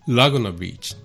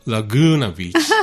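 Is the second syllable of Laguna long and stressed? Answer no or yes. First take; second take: no; yes. First: The syllable gu is short and not stressed. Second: The syllable gu is long and stressed. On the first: The speaker calls it wrong. "全然通じないんですよ。" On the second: The speaker calls it right. "発音がラグーナビーチ"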